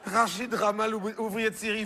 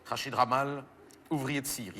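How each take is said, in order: First: Voix remontée, nom répété avec incrédulité; répéter comme si c'était une farce; répétition incrédule. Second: Grave et retenu, en relisant la fiche; relecture à voix basse. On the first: Répète le nom, croit à une plaisanterie. (répétition incrédule du nom) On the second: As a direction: relire pour soi, très bas. Relit la fiche, découvre le jeu de mots. (relecture grave, à mi-voix) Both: Acted.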